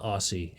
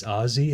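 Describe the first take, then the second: First: "Aussie" with a hissed S; mispronounced Aussie. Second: "Aussie" with a buzzing Z; correct Aussie pronunciation. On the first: Streamer corrects the wrong way to say "Aussie", S sound. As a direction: say "Aussie" with S, like "AW-see". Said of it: "so it's not Aussie". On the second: Streamer learns how "Aussie" is pronounced, with a Z sound. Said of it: "It's literally pronounced that way". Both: Shown as a demonstration.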